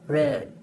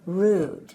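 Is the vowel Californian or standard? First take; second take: Californian; standard. First: The vowel is said in a Californian way. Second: The vowel is said in a standard way. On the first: "the California version" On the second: "a standard pronunciation"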